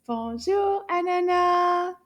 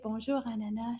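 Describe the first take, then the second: First: Loud, high sing-out call; nice loud voice. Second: Said in the usual way. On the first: Shown as a demonstration. Teacher calling Anana to join class, loud and drawn-out. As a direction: call it out long and clear. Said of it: "in a nice loud voice". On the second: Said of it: "Can you say that in a nice loud voice?".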